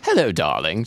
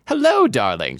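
First: Posh British greeting, chirped; British accent. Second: Higher, louder cheery greeting; bright chirp. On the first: Acted. Mother greeting her daughter, posh British accent. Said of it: "I should be doing British accents". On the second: A narrator's reading. Mother greeting her daughter, chirping brightly. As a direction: chirp it out lightly. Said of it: "she ch-, chirped bright".

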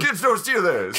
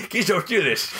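First: Gruff mountain man. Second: Put-on old prospector voice, higher; a crusty Old West prospector; gruff mountain man. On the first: Retold or imitated. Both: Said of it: "Batman's an old prospector from the West".

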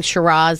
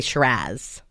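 First: Said in the usual way. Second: "Shiraz" with a flat A, rhyming with jazz; "Shiraz" as shuh-RAZZ, pitched lower; Australian pronunciation. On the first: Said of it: "instead of saying Shiraz". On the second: Shown as a demonstration. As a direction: say "Shiraz" the Aussie way, ending in -azz. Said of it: "so you get the accent down".

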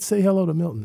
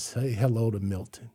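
First: Mocking repeat. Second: Said in the usual way. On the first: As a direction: throw her own words back at her. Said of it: "I said". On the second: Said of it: "she says".

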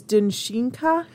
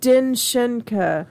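First: "Dinshinka" with SHEEN in the middle; corrected pronunciation. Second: "Dinshenka" slowly, with an n before sh; tentative pronunciation. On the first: Host corrects the fairy name, "Dinshinka" with long ee. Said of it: "I think the pronunciation is". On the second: Host corrects the guessed name, slow "Dinshenka" with SHEN. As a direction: sound out "Dinshenka" as din-SHEN-ka. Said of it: "probably mispronounce this". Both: Shown as a demonstration.

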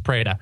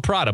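First: Prada said as PRAY-duh; correct name pronunciation. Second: Prada said with an "ah", PRAH-duh; spelling pronunciation. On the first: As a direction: say Prada with a long "ay" in the first syllable. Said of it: "but it's pronounced Prada". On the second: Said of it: "It's spelled Prada". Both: Shown as a demonstration.

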